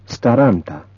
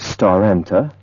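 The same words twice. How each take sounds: First: The vowel quality stays the same in each syllable. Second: The vowel quality changes between syllables. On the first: The speaker calls it right. "has the same vowel quality in each syllable" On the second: The speaker calls it wrong. "We don't say staranta"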